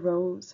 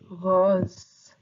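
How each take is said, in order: First: It is pronounced with English sounds. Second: It is pronounced with French sounds. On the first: "like the flower rose" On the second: "In French we pronounce it rose"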